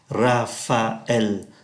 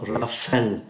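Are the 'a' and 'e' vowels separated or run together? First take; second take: separated; run together. First: The a and e vowels are said separately. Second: The a and e vowels run together. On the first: The speaker calls it right. "chúng ta tách ra như thế này" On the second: The speaker calls it wrong. "chúng không đọc Raphael"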